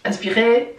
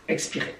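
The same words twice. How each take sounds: First: Breathing instruction ending on a rise; breathe-in cue. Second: Very soft breathing instruction; breathe-out cue. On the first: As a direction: lift the end of "Inspirer" to cue the breath. (consigne d'inspiration, ton montant) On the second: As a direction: release "expirer" almost under the breath. (consigne d'expiration, tout bas) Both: Shown as a demonstration. Guides a breathing exercise.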